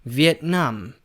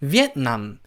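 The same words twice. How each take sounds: First: The stress is on the last syllable. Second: The stress is on the first syllable. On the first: The speaker calls it right. "강세가 비엔남이 아니고 뒤로 가요" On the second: The speaker calls it wrong. "앞에 강세를 줘가지고 비엔남"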